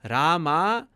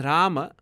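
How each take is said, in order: First: "Rama" with a long drawn-out final aa; long final vowel. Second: "Rama" with long first aa and short final a; short final vowel. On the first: Teacher showing the changed word, "Rama" ending long. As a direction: stretch both vowels of "Rama", slowly. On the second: Teacher showing the contrasting word, "Rama" ending short. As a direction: let the last vowel of "Rama" drop short. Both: Shown as a demonstration. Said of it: "is different".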